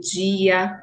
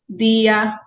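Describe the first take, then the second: First: The d is palatalized, sounding like dj. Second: The d is a plain stop before i. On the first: This is how other regions speak. "em outras localidades existe a pronúncia palatalizada, o chiada" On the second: This is the local regional way of speaking. "aqui em Pernambuco, nós pronunciamos dia"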